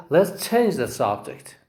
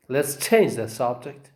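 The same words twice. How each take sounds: First: CHANGE stressed, falling at the end. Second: CHANGE stressed, rising at the end. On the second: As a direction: say "change" with weight and lift the end. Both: Shown as a demonstration. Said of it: "we say".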